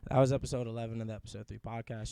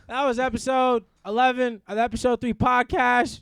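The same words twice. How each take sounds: First: The voice is smooth and sultry. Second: The voice is plain and ordinary.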